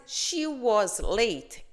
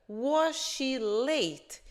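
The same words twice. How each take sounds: First: "She was late", slow and falling, as a plain fact; affirming statement. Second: "Was she late?" very slow, higher, each word drawn out; teacher's question. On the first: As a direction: state "She was late" deliberately, letting the tune drop. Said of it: "eu estou afirmando que ela estava atrasada". ("She was late", afirmação lenta com queda no final) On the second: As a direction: ask "Was she late?" slowly, word by word, raised in pitch. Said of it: "a pergunta fica". ("Was she late?", pergunta bem lenta e mais aguda) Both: Shown as a demonstration.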